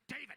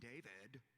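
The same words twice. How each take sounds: First: It is said in a rough, monstrous character voice. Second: It is said in a normal speaking voice.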